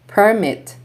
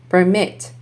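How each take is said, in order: First: PERmit, stressed on the first syllable; noun stress. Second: PerMIT, stressed on the second syllable; light per, strong MIT in permit; verb stress. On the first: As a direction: punch PER in Permit, then fall. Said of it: "nouns are stressed on the first syllable". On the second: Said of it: "verbs are stressed on the second syllable". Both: Shown as a demonstration.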